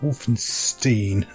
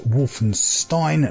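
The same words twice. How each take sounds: First: The last syllable sounds unlike the end of Frankenstein. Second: The last syllable sounds like the end of Frankenstein. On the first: The speaker calls it wrong. "not Wolfenstein, some people tried to call it" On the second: The speaker calls it right. "And that is Wolfenstein"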